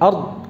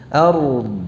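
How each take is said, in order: First: The final consonants are stuck and halted. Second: The r and d are each pronounced distinctly. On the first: The speaker calls it wrong. "tidak macet ard" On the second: The speaker calls it right. "masing-masing dibaca dengan jelas, izhar, ra-nya jelas, dad-nya jelas"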